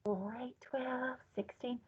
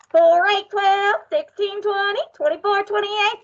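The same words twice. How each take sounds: First: Counting in a soft whisper; teacher shows how to whisper the count. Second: Higher, louder count; teacher counts loudly so the office complains. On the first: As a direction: breathe the numbers out. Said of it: "I want you to whisper it". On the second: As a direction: make some noise with the numbers. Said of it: "this is the loud one". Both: Shown as a demonstration.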